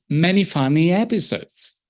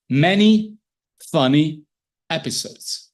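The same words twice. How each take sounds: First: The words flow together with stress on the last. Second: Each word is read separately with breaks between. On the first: This is how a proficient adult reader reads. The speaker calls it right. "we read at the level of a chance" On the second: This is how a beginning reader reads. The speaker calls it wrong. "words at a time, word per word"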